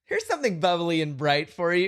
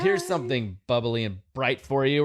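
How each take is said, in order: First: It sounds bright and cheerful. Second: It sounds flat and annoyed.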